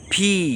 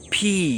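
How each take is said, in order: No difference in how they are said.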